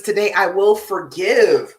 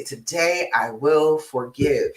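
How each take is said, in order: First: Slow, firm reading of a card; reading the card aloud. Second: Slow repeat. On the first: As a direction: read the affirmation out clearly and a bit louder. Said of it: "It says". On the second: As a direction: let the words sink in, drawn out and gentle. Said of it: "Today I will forgive any past mistakes". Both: Shown as a demonstration.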